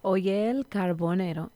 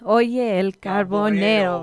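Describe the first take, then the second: First: It is said at a softer volume. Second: It is said at a louder volume.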